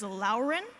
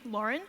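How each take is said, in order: First: It is said as two Chinese syllables, lao ren. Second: It is said as the ordinary English name. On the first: The speaker calls it wrong. "commonly mispronounced as" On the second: The speaker calls it right. "my name"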